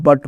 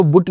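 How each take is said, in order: First: बट with a short a like but; correct reading. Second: बुट with u as in put, the wrong way; wrong reading. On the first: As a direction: say बट short and open. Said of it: "बट पढ़ना लिखना है". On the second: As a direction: read बुट with a rounded u. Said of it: "को बुट नहीं पढ़ना है". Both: Shown as a demonstration.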